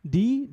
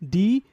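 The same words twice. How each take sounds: First: The full letter name is said. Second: The same.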